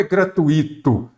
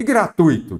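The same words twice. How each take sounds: First: "gratuito" with ui as one stressed syllable; diphthong pronunciation. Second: "gratuito" with a stressed, separate i; wrong hiatus in "gratuito", stress landing on the i; accented-i mispronunciation. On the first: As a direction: say "gratuito" as three beats, gra-TUI-to. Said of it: "A forma correta é o quê?". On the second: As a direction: say "gratuito" as four beats, gra-tu-Í-to. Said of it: "tem acento ou é gratuito". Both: Shown as a demonstration.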